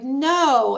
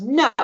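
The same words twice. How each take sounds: First: Put-on higher, playful little-girl "no"; playful refusal. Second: Mildly acted child's "no"; child's refusal. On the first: Little girl to mom, playfully refusing. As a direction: refuse as part of the game. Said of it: "more playfully was like". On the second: Child refusing mom's chore, imitated refusal. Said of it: "And the child goes".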